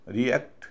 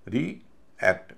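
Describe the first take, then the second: First: Said in the usual way. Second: रीएक्ट slowly in two parts, "ree", pause, "akt"; prefix split off. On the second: Shown as a demonstration. Teacher separating the prefix for students, रीएक्ट split as "ree ... akt". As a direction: break रीएक्ट after री with a clear gap. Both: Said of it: "prefix को अलग कर दिया जाता है".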